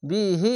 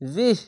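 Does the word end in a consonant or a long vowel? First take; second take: long vowel; consonant. First: The final vowel is held long. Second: It ends on the consonant, no vowel. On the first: The reading continues without a stop. "এক আলিফ টেনে পড়তে হয়" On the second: The reading stops here. "শেষ অক্ষরে সাকিন দিয়ে দিবেন দিয়ে থেমে যাবেন এরকম ভাবে"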